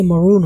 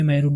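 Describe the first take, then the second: First: मरून with short "muh" before "roon"; English pronunciation. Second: मैरून with a full "mai"; Urdu-style pronunciation. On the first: Teacher giving the English form, मरून as "muh-roon". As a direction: reduce the first vowel of मरून. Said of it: "लेकिन ये मरून होगा". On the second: Teacher showing what English avoids, मैरून with full "mai". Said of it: "English में मैरून नहीं होगा". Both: Shown as a demonstration.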